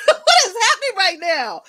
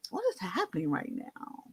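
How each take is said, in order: First: High, loud, laughing disbelief; mock-alarmed manager, loud and high. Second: Bewildered. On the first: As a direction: blurt it out through a laugh, shocked. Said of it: "she was like". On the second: Retold or imitated. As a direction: ask it half to yourself, dazed and faint. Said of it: "I said".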